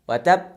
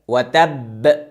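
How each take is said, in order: First: The final b ends weakly without a strong bounce. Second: The doubled final b ends with a strong bounce. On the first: The speaker calls it wrong. "اگر ایتو بگیم ... حق حرف ادا نشد" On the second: The speaker calls it right. "باید خوب تکانش بدیم"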